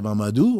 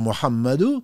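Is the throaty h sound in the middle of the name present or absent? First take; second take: absent; present. First: The name is said without the throaty h sound. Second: The name is said with the throaty h sound. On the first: The speaker calls it wrong. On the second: The speaker calls it right.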